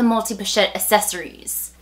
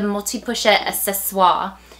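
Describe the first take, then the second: First: The last word is said the English way. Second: The last word is said the French way. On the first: The speaker calls it wrong. "we just anglicize pronunciations" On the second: The speaker calls it right. "is how I pronounce it"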